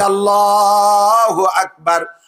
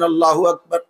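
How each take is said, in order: First: It is said slowly and drawn out. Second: It is said short and quickly.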